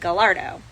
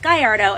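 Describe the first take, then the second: First: The word is said with Italian sounds. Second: The word is said with Spanish sounds. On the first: The name is treated as Italian. The speaker calls it wrong. "not the Italian Gallardo" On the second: The name comes from a Spanish bull breed. The speaker calls it right. "which is why it's Gallardo"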